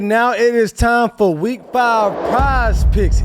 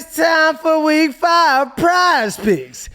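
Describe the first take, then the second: First: It is said flatly, with little energy. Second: It is said with more energy and oomph.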